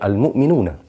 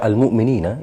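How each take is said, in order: First: The word ends with the sound -una. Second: The word ends with the sound -ina. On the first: The word is the subject of the sentence. The speaker calls it right. "harus dibaca al-mu'minuna karena berkedudukan sebagai subjek" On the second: The word would be an object or follow a preposition. The speaker calls it wrong. "ketika dibaca al-mu'minina itu adalah sebuah kesalahan"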